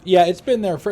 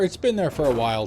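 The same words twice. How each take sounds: First: Loud burst on been; emphatic loud. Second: Said in the usual way. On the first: Real, not acted. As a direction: blurt it out, stressing been. Reads chat, emphatic.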